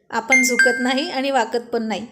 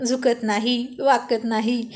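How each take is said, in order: First: Mildly defiant declaration; firm, lightly acted bravado; defiant boast. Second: Lightly mocking repetition; understated teasing mimicry of bravado; mocking echo. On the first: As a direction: insist with pride that you never give in. Acted boast, mocked right after. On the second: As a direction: parrot a friend's boast to tease them. Friend mockingly repeats the boast.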